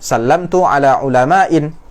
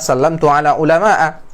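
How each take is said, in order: First: The last word ends with an added n sound. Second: The last word ends in a plain vowel. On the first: The speaker calls it wrong. "Ini benar atau salah? Salah" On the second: The speaker calls it right. "yang benar adalah sallamtu ala ulama'a"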